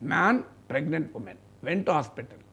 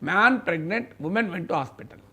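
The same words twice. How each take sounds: First: The pause comes after the word man. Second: The pause comes after the word pregnant. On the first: A man and a pregnant woman went to hospital. "Meaning వేరే" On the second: The man became pregnant and a woman went to hospital. "ఈ కామాను తీసి pregnant తర్వాత పెట్టండి"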